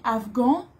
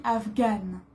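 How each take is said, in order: First: Afghan said with a nasal ending, no final n; teacher models afghan, ending on a nasal vowel; masculine afghan. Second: Afghane with a clear n sounded at the end; teacher models afghane, pronouncing the final n; feminine afghane. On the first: Teacher showing the class the masculine form, nasal ending. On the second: Teacher showing the class the feminine form, n sounded. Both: Shown as a demonstration. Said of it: "Pour une fille".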